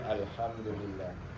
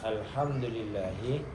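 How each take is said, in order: First: The word ends without the final vowel sound. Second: The word ends with a final vowel sound. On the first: "tanpa harokat dibaca alhamdulillah" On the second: "Contohnya alhamdulillahi"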